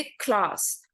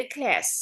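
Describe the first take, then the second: First: क्लास in a British accent, with a long open a as in klaas. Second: क्लास in an American accent, with a flat short a as in klæs. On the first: Teacher showing students the British way to say it, in a British accent. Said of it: "British होंगे ना, वो बोलेंगे". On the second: Teacher showing students the American way to say it, in an American accent. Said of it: "American होंगे ना, वो बोलेंगे". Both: Shown as a demonstration.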